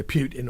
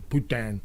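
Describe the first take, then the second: First: Said in the usual way. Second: Putin said as poo-tan, with a nasal French second vowel; French-sounding Putin. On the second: Shown as a demonstration. Vlogger shows viewers the French swear word, Putin as poo-tan. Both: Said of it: "in French is fuck".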